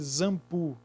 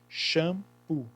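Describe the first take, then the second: First: The word begins with a z sound. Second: The word begins with a sh sound. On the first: The speaker calls it wrong. "Tem som de Z? Não, porque seria zampu" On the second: The speaker calls it right. "O X tem som de C H, por isso que é shampoo"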